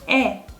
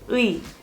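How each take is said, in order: First: The vowel sounds like a plain 'e'. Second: The vowel sounds like 'ui', as spelled. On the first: "when you pronounce it, we say 에" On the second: "Even though it's written as 의"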